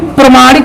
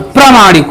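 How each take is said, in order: First: The vowel after 'pr' is short. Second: The vowel after 'pr' is long. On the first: The speaker calls it wrong. "प्रमाणिक नहीं होता" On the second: The speaker calls it right. "प्रामाणिक होता है"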